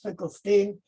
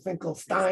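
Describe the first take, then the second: First: The last syllable sounds like 'steen'. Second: The last syllable sounds like 'stine'. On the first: This is the New York way of saying it. "my family in, in America came through New York. So my grandfather was" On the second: This is the German way of saying it. "My father liked history, so he became"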